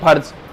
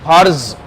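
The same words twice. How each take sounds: First: The word is said plainly, without extra force. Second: The word is said with extra force. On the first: The letter has no dot beneath it. "जैक पे हम बोलते हैं फर्ज" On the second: The letter has a dot beneath it. "तो उसे फिर जोर देके बोलना पड़ेगा आपको।"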